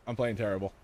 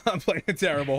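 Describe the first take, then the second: First: Said in the usual way. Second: Laughing. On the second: Real, not acted.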